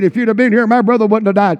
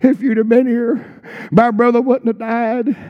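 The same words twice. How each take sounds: First: It sounds confrontational and accusing. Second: It sounds tearful and weeping.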